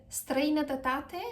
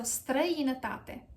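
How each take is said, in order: First: Străinătate with an extra tuh syllable, rising end; mispronounced străinătate. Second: Străinătate as struh-ee-nuh-TA-te, falling end; correct străinătate. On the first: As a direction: garble străinătate as strei-nuh-tuh-TA-te. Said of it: "that's not correct". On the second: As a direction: model străinătate with no extra syllable. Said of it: "So străinătate". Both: Shown as a demonstration.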